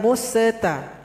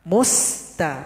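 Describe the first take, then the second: First: The consonant bounces with an added echo vowel. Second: The consonant is held without any echo vowel. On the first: The speaker calls it wrong. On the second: The speaker calls it right.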